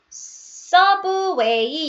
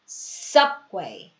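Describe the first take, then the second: First: A vowel sound follows the b. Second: The lips just close on the b. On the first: The speaker calls it wrong. "서브웨이 이러시면 안 되죠" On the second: The speaker calls it right. "sub, sub, subway, subway, subway 이런 느낌이에요"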